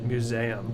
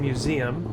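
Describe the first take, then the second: First: It is pronounced in an odd, unfamiliar way. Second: It is pronounced in the ordinary, familiar way. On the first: Someone else says it this way. The speaker calls it wrong. "hearing him pronounce it museum" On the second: This is how the speaker says it. The speaker calls it right. "like I say museum"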